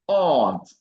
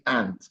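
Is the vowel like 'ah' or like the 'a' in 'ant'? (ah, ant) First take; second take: ah; ant. First: The vowel is a long open 'ah'. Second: The vowel is the short 'a' of 'ant'. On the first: It names a mother's sister. The speaker calls it right. "it's R. So here it's aunt" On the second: It sounds like the name of an insect. The speaker calls it wrong. "Don't say aunt"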